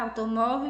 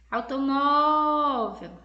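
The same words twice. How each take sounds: First: Said in the usual way. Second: "Automóvel" called loudly, "mó" held very long; calling out, drawn-out MÓ. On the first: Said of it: "no quadro aí que vocês estão vendo". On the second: Shown as a demonstration. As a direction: stretch the "mó" in "Automóvel" as if calling someone far away. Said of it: "você vai chamar por ela". (chamando de longe, "Automóvel" com o "mó" bem alongado e forte)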